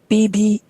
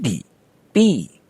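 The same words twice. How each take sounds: First: The second syllable is not low and lingering. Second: The second syllable is low, long and lingering. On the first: The speaker calls it wrong. "it's not B B" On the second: The speaker calls it right. "B is higher and B is long, lower, and lingering"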